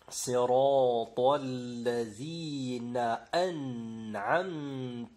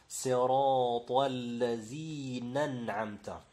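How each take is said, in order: First: The glottal stop before an'amta is clearly pronounced. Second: The glottal stop before an'amta is dropped. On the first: The speaker calls it right. "il faut prononcer la fatha du nun et la hamza avec la fatha" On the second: The speaker calls it wrong. "le hamza là, ils la font sauter"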